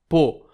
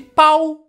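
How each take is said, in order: First: The vowel is a plain 'o'. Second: The vowel glides like 'ow'. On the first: It is the real name of the town. The speaker calls it right. "a pronúncia certa é Pô" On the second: It is said as a joke on a rude word. The speaker calls it wrong. "Eu falei de zoeira"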